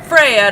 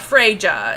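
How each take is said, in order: First: The middle consonant is a y sound. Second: The middle consonant is a hard j sound. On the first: The speaker calls it right. "it's Freya" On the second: The speaker calls it wrong. "not Freja"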